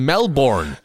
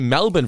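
First: The name is said with an American pronunciation. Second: The name is said with an Australian pronunciation. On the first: The speaker calls it wrong. "instead of Melbourne" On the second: The speaker calls it right. "say Melbourne for a change"

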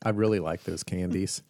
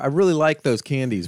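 First: It is said at a normal, quieter volume. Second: It is said louder.

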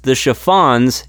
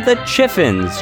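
First: The last syllable is said like 'fon'. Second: The last syllable is said like 'fin'. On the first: The speaker calls it right. "it's pronounced the Chiffons" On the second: The speaker calls it wrong. "It is not the Chiffins"

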